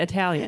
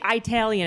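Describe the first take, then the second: First: Said in the usual way. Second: Italian said EYE-talian; Italian starting like the word eye; grandparents' Italian. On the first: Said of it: "instead of Italian". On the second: Retold or imitated. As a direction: say Italian with a long opening EYE. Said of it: "when your grandparents say".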